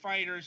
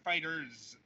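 First: It ends like an ordinary plural sound. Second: It ends with a stylized, exaggerated Z sound. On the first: The speaker calls it right. "it's pronounced FighterZ ... Like the plural" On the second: The speaker calls it wrong. "and not FighterZ ... not the edgelord plural"

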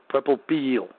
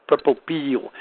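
No difference in how they are said.

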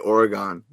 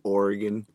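First: Oregon is said with a non-local pronunciation. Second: Oregon is said with the local pronunciation. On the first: This is how people from elsewhere say it. "We say Oregon" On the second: This is how people from Oregon say it. "You already say it like you're from out there"

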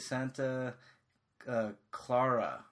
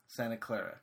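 First: It is said with a British pronunciation. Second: It is said with an American pronunciation. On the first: This is how the English actors said it. The speaker calls it wrong. "they said Santa... What did they say? Santa Clara instead of Clara" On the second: This is how people on the US West Coast say it. The speaker calls it right. "Like how we in the United States would say it on the West Coast"

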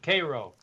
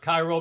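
First: The first syllable sounds like "kay". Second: The first syllable sounds like "kye". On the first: "It's pronounced K-A-R-O" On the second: "they don't pronounce it that way"

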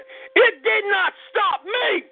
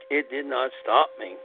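First: The phrase is said loudly and energetically. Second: The phrase is said quietly and flatly. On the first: The speaker calls it right. "I'm going to tell you how I say it. I say" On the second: The speaker calls it wrong. "Only I don't say it like it did not stop me"

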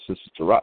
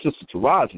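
First: The name is said plainly, without extra force. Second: The name is said loudly, with chest and force. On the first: The speaker calls it wrong. "that ain't just Sister Taraji" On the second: The speaker calls it right. "you got to say it with your chest"

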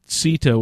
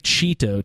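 First: The name begins with a soft s sound. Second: The name begins with a ch sound. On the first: The speaker calls it right. "Sito with like sort of a soft C" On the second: The speaker calls it wrong. "I always want to say Cheeto too"

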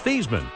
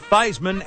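First: The first syllable does not rhyme with Heis. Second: The first syllable rhymes with Heis. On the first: This was the name's original pronunciation. "when he was at Notre Dame, his name was Theismann" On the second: This pronunciation was adopted later for publicity. "change the pronunciation to Theismann as in Heisman"

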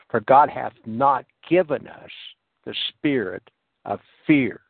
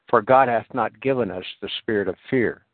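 First: The verse is read at a slow pace. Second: The verse is read at a fast pace. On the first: "When we really read that slow" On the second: "I'm going to read it fast"

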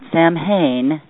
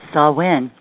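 First: The name is sounded out letter by letter. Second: The name is not sounded out letter by letter. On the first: The speaker calls it wrong. "not Samhain, as the spelling looks" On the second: The speaker calls it right. "but Samhain"

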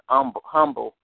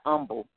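First: The word begins with an audible H sound. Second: The word begins without any H sound. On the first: "they say the same thing I'm saying" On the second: "an H is not pronounced"

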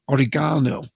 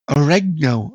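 First: It is said with a non-American pronunciation. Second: It is said with an American pronunciation. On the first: "is the way I would pronounce it" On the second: "I think sometimes is the way they would say it in the United States"

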